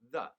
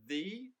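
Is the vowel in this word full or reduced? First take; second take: reduced; full. First: The word has a short, reduced vowel. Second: The word has a full, clear vowel.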